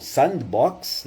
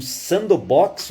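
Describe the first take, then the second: First: "Sandbox" slowly as sand-box; second pronunciation attempt. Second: "Sandbox" drawn out as san-do-box; first pronunciation attempt. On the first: Teacher correcting himself on the English term, "Sandbox" as sand-box. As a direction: say "Sandbox" drawn out, no vowel after the d. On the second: Teacher unsure of the English term, "Sandbox" as san-do-box. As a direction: say "Sandbox" slowly with an extra vowel after the d. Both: Shown as a demonstration. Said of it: "não sei como é que se pronuncia".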